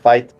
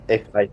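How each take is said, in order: First: The name is said as one syllable. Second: The name is said as a letter and number. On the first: This is the official pronunciation. "is pronounced Fate" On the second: This is the speaker's personal way of saying it. "for me, it's F eight"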